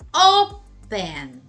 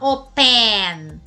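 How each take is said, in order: First: The stress is on the first syllable. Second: The stress is on the second syllable. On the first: The speaker calls it right. "Por isso que a sílaba tônica vai ser o O" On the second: The speaker calls it wrong. "você não vai falar open"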